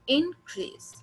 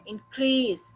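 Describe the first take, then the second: First: The stress is on the first syllable. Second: The stress is on the second syllable. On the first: It is used as a noun. "यहाँ पे इन पे हमने जोर डाला" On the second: It is used as a verb. "हमने इस पे stress दिया, इस पे जोर डाला"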